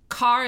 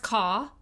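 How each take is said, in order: First: The final R is pronounced. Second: The final R is dropped, Yat style.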